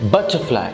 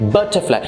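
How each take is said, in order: The two takes are said the same way.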